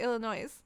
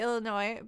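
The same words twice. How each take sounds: First: The word ends with an audible S sound. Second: The word ends without an S sound. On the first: The speaker calls it wrong. "but I say Illinois" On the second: The speaker calls it right. "It is probably Illinois"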